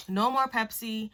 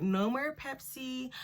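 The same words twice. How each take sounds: First: Lightly voiced mom, matter-of-fact; a hint of a firm mother setting a rule; mom's first warning. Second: Higher and slower, each word pressed, "No more Pepsi" drawn out; emphatic mom. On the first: Mom bans her Pepsi after the news, lightly voiced. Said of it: "the first thing she told me was". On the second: Retold or imitated. Mom repeats the Pepsi ban, slower and higher. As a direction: lay down the law on "Pepsi". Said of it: "She was like".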